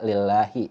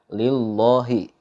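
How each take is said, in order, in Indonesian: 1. Bunyi L dibaca tipis dan ringan. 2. Bunyi L dibaca tebal dan berat. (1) "dibaca tarkik ataupun dibaca tipis" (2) "nggak boleh dibaca"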